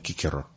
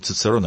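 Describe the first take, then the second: First: The name begins with a k sound. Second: The name begins with a ts sound. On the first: This is how the ancient Romans said the name. The speaker calls it right. "а Кикеро" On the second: This is the modern way of saying the name. The speaker calls it wrong. "Они говорили не Цицерон"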